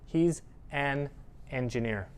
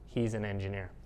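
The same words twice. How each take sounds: First: The words are said separately. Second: The words are squished together. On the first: The speaker calls it wrong. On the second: The speaker calls it right.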